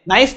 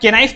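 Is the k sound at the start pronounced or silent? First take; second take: silent; pronounced. First: The word begins with an n sound. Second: The word begins with a k sound. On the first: The speaker calls it right. "अरे भाई के silent होता है इसमें" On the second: The speaker calls it wrong. "तो इसे तुम क्या के नाइफ पढ़ते हो?"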